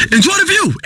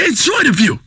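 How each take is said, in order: First: High-pitched, emphatic urging; high preacher-like exhortation; high exclamation. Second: Said in the usual way. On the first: Acted. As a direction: pitch it well up, then fall. Same words said high, then lower.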